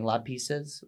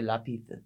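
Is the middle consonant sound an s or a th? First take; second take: s; th. First: The consonant is a plain s sound. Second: The consonant is a lisped th sound. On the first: "Rather than saying lapices" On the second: "Castilian accent is like putting a th"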